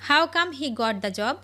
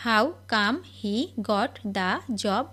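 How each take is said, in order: First: Said in the usual way. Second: Slow, clear repeat. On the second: Shown as a demonstration. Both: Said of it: "teacher model then slow repeat".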